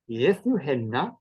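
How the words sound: Rising contour with a long held N.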